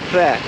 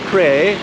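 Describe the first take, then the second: First: A short, strained, choked pr sound opens it. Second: It sounds like the English word pray. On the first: The speaker calls it right. "more like Kleh, ... try to make P R sound and someone punch you in the stomach" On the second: The speaker calls it wrong. "Not pray"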